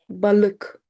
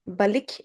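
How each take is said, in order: First: Balık with schwa-like second vowel; dotless ı. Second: Balık ending in an ee-k sound; wrong vowel. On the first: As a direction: say Balık with a dull uh, not ee. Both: Shown as a demonstration. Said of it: "Balık is wrong".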